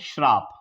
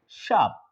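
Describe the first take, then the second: First: An r sound follows the opening sh. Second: No r sound follows the opening sh. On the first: The speaker calls it wrong. "ये अशुद्ध है आपका" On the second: The speaker calls it right. "ये शुद्ध है"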